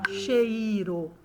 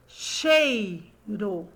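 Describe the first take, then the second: First: CHEIRO stretched as che-I-ro; slow overseparated CHE-I-RO; CHEIRO split wrongly. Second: CHEIRO in two slow beats, chei-ro; deliberate two-syllable CHEI, RO. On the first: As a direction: break the I away in "cheiro", three syllables. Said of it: "Ou eu falo cheiro". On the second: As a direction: pause between CHEI and RO in "Cheiro". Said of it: "fale pausadamente". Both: Shown as a demonstration.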